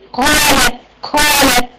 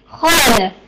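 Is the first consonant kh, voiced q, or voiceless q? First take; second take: voiceless q; kh. First: The first consonant is a voiceless q sound. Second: The first consonant is a rough kh sound. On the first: "بدلت جهر القاف بالهمس" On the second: "لا هيعتمد مثلا على مخرج الخاء"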